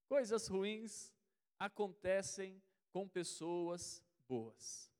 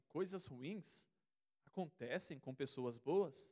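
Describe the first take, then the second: First: It is said as a firm statement. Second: It is said as a doubtful question. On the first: It is affirmed as true. "E eu vou afirmar novamente" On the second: The listener doubts that this happens. "Aí talvez você vai falar assim"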